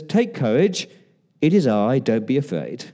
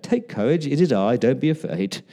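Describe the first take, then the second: First: Said in the usual way. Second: Lightly condescending, singsong reassurance; mildly patronizing. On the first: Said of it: "Wonder what tone of voice he used". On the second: Shown as a demonstration. Preacher trying out Jesus's tone of voice, mildly patronizing. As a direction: soothe as if talking down slightly. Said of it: "that sounds a bit patronizing".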